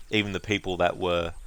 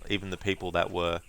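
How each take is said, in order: Both takes have the same delivery.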